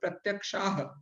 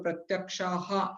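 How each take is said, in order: First: The final h ends without an echoed vowel. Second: The final h is followed by an echoed vowel. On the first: The speaker calls it right. "प्रत्यक्षाह बस इतना ही बहुत है" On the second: The speaker calls it wrong. "प्रत्यक्षा है तो प्रत्यक्षाहा ऐसे पढ़ा जाता है"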